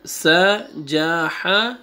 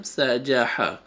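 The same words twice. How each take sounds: First: سا، جا، ہا drawn out one by one; separate letters. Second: سا، جا، ہا connected, lower than when separated; three letters joined. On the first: Teacher demonstrates first time, سا، جا، ہا separately. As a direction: give each of سا، جا، ہا its own beat and pause. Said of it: "separate پڑھا ہے letters کو". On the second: Teacher demonstrates second time, سا، جا، ہا joined up. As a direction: say سا، جا، ہا in one run. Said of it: "second time". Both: Shown as a demonstration.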